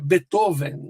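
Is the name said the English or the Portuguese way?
Portuguese. The name is said with Portuguese pronunciation. "Em português nós falamos"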